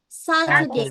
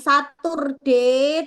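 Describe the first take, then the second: First: The d sound is light and thin. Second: The d sound is heavy and strongly pronounced. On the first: The speaker calls it right. "tapi Saturday / tipis aja D-nya" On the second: The speaker calls it wrong. "Bukan Saturday / D-nya jangan medok-medok"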